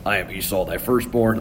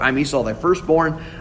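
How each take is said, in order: First: It is said in a lowered, deeper voice. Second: It is said in his normal voice.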